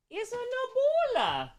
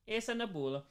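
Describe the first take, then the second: First: High sing-song pet talk. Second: Said in the usual way. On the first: Real, not acted. Cooing over her cat.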